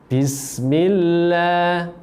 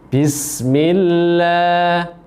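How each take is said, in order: Both takes have the same delivery.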